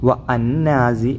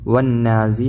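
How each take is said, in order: First: The 'wa' is said apart from the following 'an'. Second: The 'wa' runs straight into a doubled n. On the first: The speaker calls it wrong. "ഒരിക്കലും വ അന്നാസി എന്ന് ഉച്ചരിക്കരുത്" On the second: The speaker calls it right. "ഇവിടെ വന്നാസി എന്ന് തന്നെ ഉച്ചരിക്കേണ്ടത്"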